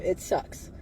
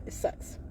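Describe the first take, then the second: First: A soft whispered aside. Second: A whispered bitter aside. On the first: She repeats her MK Ultra admission in a whisper. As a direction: breathe it out quietly. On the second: She admits her MK Ultra past in a whisper. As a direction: drop it to a whisper. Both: Real, not acted.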